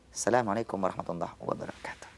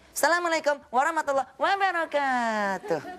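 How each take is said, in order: First: It is said as a plain everyday greeting. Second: It is said in a kindergarten teacher's singsong.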